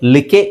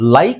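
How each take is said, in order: First: Short 'ih' vowel with a final 'e' sounded. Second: 'Eye' vowel with the final 'e' silent. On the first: The speaker calls it wrong. "ಇದು phonics ಪ್ರಕಾರ ಏನಾಗುತ್ತೆ, ಲ್ ಇ ಕೆ ಲ್ ಇ ಕ ಎ ಲಿಕೆ ಆಗುತ್ತೆ" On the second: The speaker calls it right. "ಈ ಕೊನೆಯಲ್ಲಿ silent ಇರುತ್ತೆ, ಇಲ್ಲಿ ಐನ ನಾವು ಐ ಅಂತಾನೆ ಹೇಳಬೇಕು"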